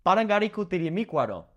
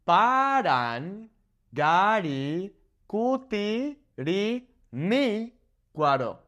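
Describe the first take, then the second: First: Quick, clipped run of Parangaricutirimícuaro; rapid tongue twister; fast. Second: Very slow, syllable by syllable; slow teaching breakdown; broken into syllables. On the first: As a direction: say Parangaricutirimícuaro at full speed. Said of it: "Say that ten times fast". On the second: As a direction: spell out Parangaricutirimícuaro slowly, one syllable at a time. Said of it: "let's break it down". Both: Shown as a demonstration.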